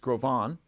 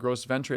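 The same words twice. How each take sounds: First: The name is pronounced with French sounds. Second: The name is pronounced with English sounds. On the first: The speaker calls it right. "It's a French name" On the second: The speaker calls it wrong. "It's not"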